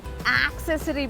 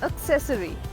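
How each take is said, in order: First: The stress falls early in the word. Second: The stress falls late in the word. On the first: The speaker calls it wrong. "ये accessory भी नहीं होता" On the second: The speaker calls it right. "The stress is on the latter half of the word"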